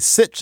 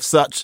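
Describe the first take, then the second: First: The vowel is an 'ih' sound. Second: The vowel is an 'uh' sound. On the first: This is how New Yorkers spoke around 1820. "people around here say sitch" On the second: This is the usual pronunciation. "instead of such"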